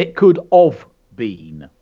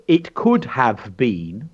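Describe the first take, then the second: First: "It could have been" slurred to "could of"; "have" dropped to a lazy "of". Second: "it could have been" with "have" fully sounded; "could have been" said carefully, every word clear. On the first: Teacher showing the common slip to children. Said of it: "they say". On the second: Teacher showing the correct "could have been" to children. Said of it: "They say, instead of". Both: Shown as a demonstration.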